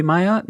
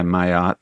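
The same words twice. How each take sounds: First: "Mayotte" tried as my-OTT, rising high like a question; "Mayotte" with soft L's, unsure upward lilt; tentative rising try. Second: Said in the usual way. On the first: Shown as a demonstration. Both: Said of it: "maybe soft L's there".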